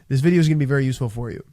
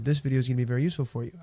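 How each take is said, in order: First: The pitch falls at the end of the sentence. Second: The pitch stays flat through the sentence. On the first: The speaker calls it right. "I finished on a down tonality" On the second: The speaker calls it wrong. "not a monotone tonality"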